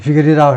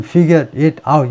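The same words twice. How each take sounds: First: The words run together like one word. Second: Each word is said separately without linking. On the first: The speaker calls it right. "네이티브 스피커들이 figure it out 하는데" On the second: The speaker calls it wrong. "나는 figure it out 이렇게 읽고 있는데"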